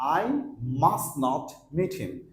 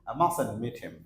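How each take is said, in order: First: Must not is said as two full words. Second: Must not is contracted into one word. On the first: "তাহলে আপনি বলতে পারেন" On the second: "ব্রিটিশরা এভাবে বলে"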